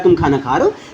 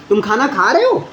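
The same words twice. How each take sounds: First: The pitch falls at the end of the sentence. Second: The pitch rises at the end of the sentence. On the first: It states that the person is eating. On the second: It asks whether the person is eating.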